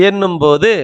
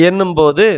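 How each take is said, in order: Both takes have the same delivery.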